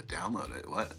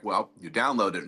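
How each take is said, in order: First: Quiet, low mock-baffled question; baffled mimicry. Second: Said in the usual way. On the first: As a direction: imitate a clueless kid not getting it. Retold baffled youngster's reply.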